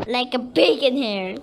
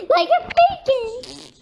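First: Said in the usual way. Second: High laughing squeal. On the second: Pretend. Repeats it in a squeal.

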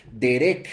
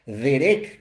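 First: Said in the usual way. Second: "derek" con acento en la segunda E, la K final marcada y alargada; hebreo derek. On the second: Shown as a demonstration. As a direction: di "derek" despacio, apoyando la segunda E y cerrando en K. ("derek" con acento en la segunda e y k final) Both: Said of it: "con acento en la segunda E y con K".

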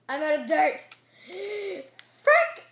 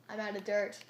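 First: High, loud burst of panic; frustrated shout. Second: Said in the usual way. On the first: Real, not acted. Gamer out of dirt, frustrated shout. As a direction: shout it higher, then a gasp and curse.

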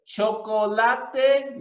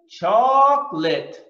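First: Chocolate said Spanish-style, cho-co-LA-te; slow "chocolate" with every vowel sounded, four syllables; wrong pronunciation. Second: Chocolate in two syllables, CHOC-lit; slow, emphatic "chocolate" said as CHOC-lit; English pronunciation. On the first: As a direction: show the mistake: chocolate as choh-koh-LAH-teh. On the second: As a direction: model "chocolate" clearly with the middle vowel dropped. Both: Shown as a demonstration.

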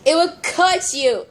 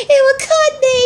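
First: Said in the usual way. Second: Loud, high-pitched tearful doll voice; pretend crying. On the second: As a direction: wail it as the hurt one. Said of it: "don't cry".

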